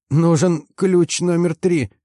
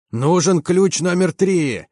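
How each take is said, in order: First: Put-on high, slow, squeaky young mechanic; thin squeak. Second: High, drawn-out bellow, held back in volume; full-throated roar. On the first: Frightened young mechanic asks for a wrench, high squeak. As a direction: pipe it up in a thin, breaking little voice. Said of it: "пропищал он тонким, срывающимся голоском". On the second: Commander relays the call for a wrench, roaring. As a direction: call it out slowly like a roar across the hull. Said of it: "заревел я во всю глотку". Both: A narrator's reading.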